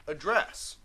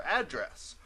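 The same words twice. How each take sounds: First: The verb form, uh-DRESS; stress on second syllable. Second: The noun form, AD-dress; stress on first syllable. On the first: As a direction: Address as uh-DRESS. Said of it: "that's address". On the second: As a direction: address as AD-dress. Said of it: "I pronounce it that way". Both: Shown as a demonstration.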